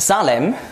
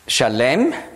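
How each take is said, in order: First: The name is said with a German pronunciation. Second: The name is said with a Hebrew pronunciation.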